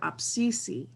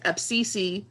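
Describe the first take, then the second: First: It is said quietly and gently. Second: It is said with a snarky tone. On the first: It sincerely states a true thing. "if you say it softer" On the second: It tells someone the speaker is talking now. "If you say it a little snarky"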